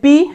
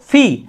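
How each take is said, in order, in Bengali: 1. P ধ্বনিটি বাতাসের ফুঁ ছাড়া উচ্চারণ করা হয়। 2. P ধ্বনিটি বাতাসের ফুঁ দিয়ে উচ্চারণ করা হয়। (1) "এতদিন পর্যন্ত আমরা কিন্তু এটাকে বলেছি পি" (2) "এখন থেকে আমাদেরকে বলতে হবে এটা হচ্ছে ফি"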